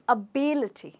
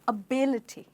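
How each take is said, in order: First: The stress is on the second syllable. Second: The stress is on the second syllable.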